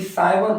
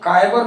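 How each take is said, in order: First: The word begins with an s sound. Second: The word begins with a k sound. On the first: The speaker calls it right. "बल्कि साइबर पढ़ते हैं" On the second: The speaker calls it wrong. "काइबर नहीं"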